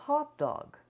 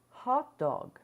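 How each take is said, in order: No difference in how they are said.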